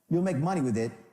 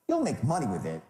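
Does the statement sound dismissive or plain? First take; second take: plain; dismissive. First: It is said in a plain, neutral way. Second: It is said dismissively, as if too obvious. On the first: It is just a claim being made. The speaker calls it wrong. "doesn't do it" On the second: It is so obvious it is not even an issue. The speaker calls it right. "I mean, pff, please"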